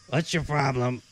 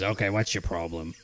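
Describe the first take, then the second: First: It is said in a raised, high voice. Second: It is said in a lower, normal voice.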